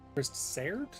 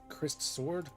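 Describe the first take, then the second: First: The last part sounds like 'serd'. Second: The last part sounds like 'sword'.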